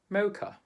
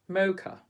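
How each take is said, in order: No difference in how they are said.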